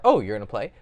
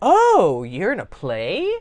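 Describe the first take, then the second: First: It is said flatly, with little pitch movement. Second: It is said with lively, varied pitch. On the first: The speaker is only filling the silence. The speaker calls it wrong. "They're just trying to think what to say next" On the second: The speaker is genuinely curious. The speaker calls it right. "he actually shows a higher level of interest"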